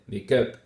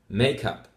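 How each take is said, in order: First: The stress is on the second word. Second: The stress is on the first word. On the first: The speaker calls it wrong. "We put the stress on the second word" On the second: The speaker calls it right. "stress on the first word of the compound"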